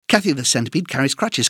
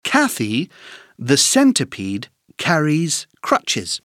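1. Elle est dite à un rythme très rapide. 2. Elle est dite à un rythme lent et soigné.

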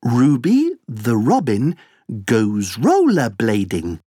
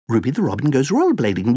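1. La phrase est dite à un rythme lent. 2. La phrase est dite à un rythme très rapide.

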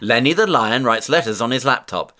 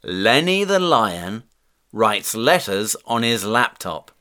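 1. La phrase est prononcée à un rythme très rapide. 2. La phrase est prononcée à un rythme modéré.

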